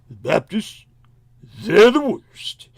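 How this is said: It is said in a put-on imitating voice. "if I could get his tone of voice just right, it'd be more like"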